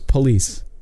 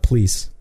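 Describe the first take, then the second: First: The word is said with two full syllables. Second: The word is squeezed into one syllable. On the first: The speaker calls it right. "There's two different syllables. It's police" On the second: The speaker calls it wrong. "Not police"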